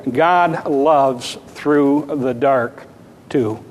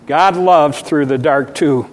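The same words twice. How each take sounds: First: Slow, weighty sermon title; title announced. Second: Said in the usual way. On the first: Shown as a demonstration. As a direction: lay out each word of the title. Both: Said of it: "a sermon entitled".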